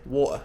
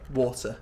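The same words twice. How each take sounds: First: The T sound is dropped entirely. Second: The T sound is fully pronounced. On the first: It is a very casual way of speaking. "British people might drop the T altogether" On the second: It is the proper way of speaking. "proper English"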